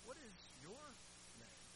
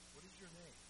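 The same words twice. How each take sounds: First: The question is asked with a pointed, demanding inflection. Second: The question is asked in a calm, even way. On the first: The demon is being made to name itself. "perhaps Jesus said it this way" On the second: A gentle question to the man. "calm, measured, undaunted by the demon's tirade"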